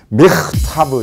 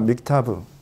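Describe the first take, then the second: First: The middle consonant is a harsh, throaty rasp. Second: The middle consonant is a plain, light k. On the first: The speaker calls it right. "믹타브 이렇게" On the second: The speaker calls it wrong. "믹타브가 아니라는 거예요"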